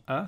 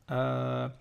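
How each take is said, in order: First: "A" said short; short vowel. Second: "A" stretched out long; prolonged vowel. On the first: Teacher naming the fatha sound, short "A". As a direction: say "A" as a brief single vowel. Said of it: "si j'ai une fatha avant". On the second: Teacher showing the prolongation, long "A". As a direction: hold "A" on one lengthened sound. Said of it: "ça va faire prolongation". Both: Shown as a demonstration.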